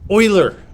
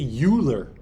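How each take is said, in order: First: The first syllable begins with an 'oy' sound. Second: The first syllable does not begin with 'oy'. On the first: The speaker calls it right. "in German you say Oi when it's E U" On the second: The speaker calls it wrong. "You may be tempted to say Euler"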